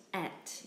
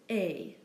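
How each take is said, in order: First: ET as "et", T heard; wrongly sounded T. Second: ET as "ay"; silent T. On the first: Teacher showing the mistake to avoid, sounded T. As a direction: say ET with a final T, softer. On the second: Teacher giving the word for and, silent T. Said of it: "The French word for and is pronounced". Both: Shown as a demonstration.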